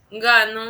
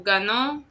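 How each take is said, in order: First: The stress falls on the first syllable. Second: The stress falls on the last syllable. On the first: It happens in the present. "yo presente" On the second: It happened in the past. "in the past"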